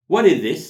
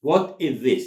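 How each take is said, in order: First: High, loud, quick run of words; natural linked delivery. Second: Louder, words more separated; careful model repetition. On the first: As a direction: model it as one connected phrase. Teacher models natural linked phrase. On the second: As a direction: articulate it word by word. Teacher repeats it more separately. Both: Shown as a demonstration.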